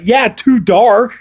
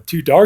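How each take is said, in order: First: "too dark" loud, high and drawn out; loud, slow mock confirmation of "too dark"; emphatic agreement. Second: "dark" lifted as a question; retold checking question, rising on "dark". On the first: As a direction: stretch "too dark" out in a raised voice. Friend's emphatic answer, acted out. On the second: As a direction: ask "Too dark?" with a rise on "dark". Retold sheepish question to his friend.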